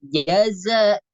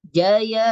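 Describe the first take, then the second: First: The second consonant is a hissing z. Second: The second consonant sounds like y. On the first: The speaker calls it right. "tapi jaza, za, ya, sifat sofirnya" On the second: The speaker calls it wrong. "bukan jaya"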